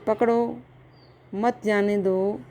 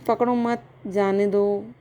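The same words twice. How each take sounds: First: The pause comes after पकड़ो. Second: The pause comes after मत.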